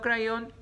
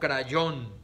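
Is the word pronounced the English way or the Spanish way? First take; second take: English; Spanish. First: The word has an English pronunciation. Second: The word has a Spanish pronunciation. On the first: The speaker calls it wrong. "No crayón" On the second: The speaker calls it right. "a lo puro hispano"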